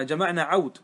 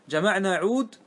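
First: عود said "ʿawd", an "a" gliding into w; fatha on the ayn. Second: عود said with a long "oo" after the ayn, "ʿood"; mistaken vowel. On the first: Shown as a demonstration. Teacher corrects himself for students, عود with fatha on ayn, "ʿawd". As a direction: open the ayn of عود with a short a, then a still w. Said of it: "بفتح العين وسكون". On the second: Real, not acted. Teacher misreads the example word to students, mistaken long-u vowel in عود. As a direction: say عود as ʿūd, with a pure long u. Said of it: "آه، عفوًا، آه، جمعنا عود".

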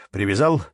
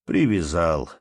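First: "Привязал" rising at the end as a question. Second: "Привязал" falling at the end as a statement; answering. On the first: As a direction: ask "Привязал" with a lifted ending. One man questions the other. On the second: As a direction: answer "Привязал" with a settled, dropping tone. The other man answers. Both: A narrator's reading.

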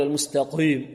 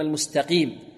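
First: المستقيم with a thick, darkened qi; over-heavy qaf. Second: المستقيم with a clear, clean long i; lightly heavy qaf. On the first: Teacher shows the mistake, المستقيم with qaf too heavy. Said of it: "لا نقول". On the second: Teacher corrects it, المستقيم with lightly heavy qaf. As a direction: keep the qi in المستقيم thin and clear. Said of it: "وإنما". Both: Shown as a demonstration.

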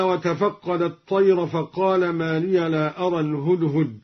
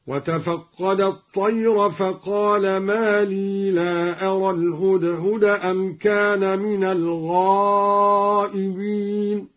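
First: Said in the usual way. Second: "لي" as long lee, not liya, chanted slowly; silent ya. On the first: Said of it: "قرأ بإسكان الياء". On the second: Shown as a demonstration. Teacher demonstrating iskan, slow chant with "لي" as lee. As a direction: recite slowly, holding "لي" with no final a. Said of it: "قرأ بإسكان الياء هكذا".

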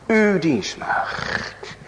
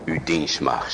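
First: Slow, drawn out. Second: Humble Abigail. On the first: Repeated, drawn out. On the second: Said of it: "zegt ze". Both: Acted.

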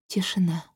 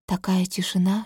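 First: Whispered. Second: Said in the usual way. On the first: A narrator's reading. Narrated silence, whispered.

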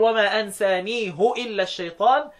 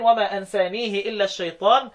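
First: أنسانيه recited slowly as ansanihu; damma on the ha. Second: أنسانيه recited as ansanihi; kasra on the ha. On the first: Teacher showing Hafs's reading, damma on أنسانيه. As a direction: end أنسانيه on hu, with u. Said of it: "ما عدا حفص يقرأ يقول". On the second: Teacher showing the majority reading, kasra on أنسانيه. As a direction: end أنسانيه on hi, with i. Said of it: "دي لكل القراء ما عدا مين؟". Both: Shown as a demonstration.

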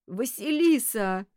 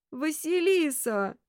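First: Slow, raised, drawn-out cry of the name; mildly tearful wail, stretched out; sobbing call. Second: High, slow, pleading wail of the name; plaintive call. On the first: Detective calling to the girl lying lifeless, sobbing. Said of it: "утробно всхлипнув". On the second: Detective pleading with the girl lying lifeless, plaintive. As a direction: stretch it into a pitiful lament. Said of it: "ещё жалобнее позвал Кудесников". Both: A narrator's reading.

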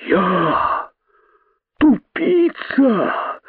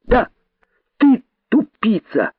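First: Very high, drawn-out incredulous squeal; disbelief. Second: High, crisp gleeful taunt; ecstatic cry. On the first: Python not believing his ears, high slow incredulity. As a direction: stretch it out, soaring in disbelief. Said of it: "не веря своим ушам". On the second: Rabbit delightedly confirming the insult to python, exultant cry. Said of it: "восторженно выкрикнул кролик". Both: A narrator's reading.

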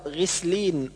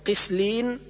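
First: غسلين opening on throaty gh; correct ghayn. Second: قسلين opening on a uvular stop q; ghayn as qaf. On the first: Teacher correcting, proper gh in غسلين. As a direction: let the غ of غسلين rasp without a stop. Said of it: "والصواب". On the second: Teacher showing the error, q in قسلين. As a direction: start قسلين with ق in place of غ. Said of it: "أو جعل الغين قافا". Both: Shown as a demonstration.

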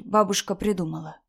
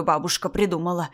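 First: Light, unforced reassurance; soothing mother. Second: Sour, threatening repetition; mocking echo. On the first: Acted. Mother explaining grandmother's claim to daughter, soothing. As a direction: gently dismiss it for a child. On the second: Grandmother echoing mother's excuse, mocking. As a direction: throw the words back indignantly.

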